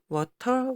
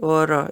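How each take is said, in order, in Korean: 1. 가운데 자음은 또렷한 t 소리입니다. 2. 가운데 자음은 빠르게 튀기는 flap 소리입니다.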